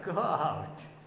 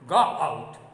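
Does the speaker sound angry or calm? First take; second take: calm; angry. First: It is said in a calm, mild tone. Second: It is said in an angry, commanding tone. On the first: The speaker calls it wrong. "He cannot say, go out. No, it is not the way" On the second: The speaker calls it right. "This is how one says, go out. The man who is speaking is in angry mood"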